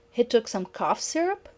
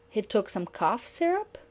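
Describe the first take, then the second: First: "syrup" rising at the end; rising statement question. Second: "syrup" rising at the end; rising statement question repeated. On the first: Teacher models a statement question ending in a rise. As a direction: let "syrup" climb up. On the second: Teacher repeats the statement question, rising at the end. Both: Shown as a demonstration. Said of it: "that element of a question".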